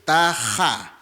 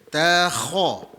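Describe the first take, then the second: First: The kh sound is light, without a full mouth. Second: The kh sound is heavy, with a full mouth. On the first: The speaker calls it wrong. "itu kita tak kembung" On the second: The speaker calls it right. "kalau kita kembungkan balik takha"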